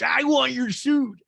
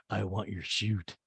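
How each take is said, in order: First: High, loud, drawn-out mock cry; Renee impression. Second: Low, soft, slow delivery; understated, drawn-out compliment in a lowered voice; Lisa impression. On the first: Renee butts in on the suit talk, hammed-up and loud. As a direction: belt it out slowly, way up high. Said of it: "And Renee goes". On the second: Lisa answers Asher's compliment, low and understated. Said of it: "And Lisa goes".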